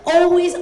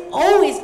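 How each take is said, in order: Both takes have the same delivery.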